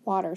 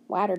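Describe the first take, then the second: First: Said in the usual way. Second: "water" said to rhyme with "matter"; mistaken sounded-out reading. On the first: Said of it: "since it's after the W". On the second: Shown as a demonstration. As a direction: say "water" with the A of cat. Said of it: "does that make sense?".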